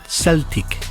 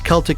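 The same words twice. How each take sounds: First: The word begins with an S sound. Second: The word begins with a K sound. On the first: This is the later French-influenced form. "the French got a hold of the word ... and pronounced it" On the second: This is the older Greek and Latin form. "in the Greek and the Latin pronunciation"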